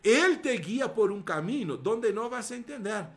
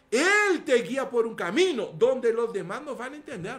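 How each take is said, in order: First: Said in the usual way. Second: Building emphasis. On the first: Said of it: "repite la frase subiendo". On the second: Real, not acted. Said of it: "repite con más fuerza".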